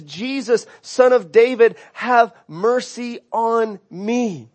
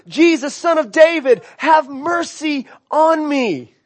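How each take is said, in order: First: Slow, pleading prayer; prayerful plea. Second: Crying out louder. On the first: Preacher voicing the blind beggar's plea, slow and pleading. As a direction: draw out have mercy on me, pleading. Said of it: "His, his prayer is". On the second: Blind beggar crying louder to passing Jesus, raised plea. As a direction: call it out like a desperate beggar. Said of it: "He starts crying out louder and louder". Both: Retold or imitated.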